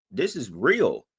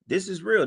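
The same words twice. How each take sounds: First: Said in the usual way. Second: Pitched up high on the repeat, insisting; this is REAL, pushed up and insistent; emphatic repeat. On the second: Real, not acted. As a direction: hammer it home the second time.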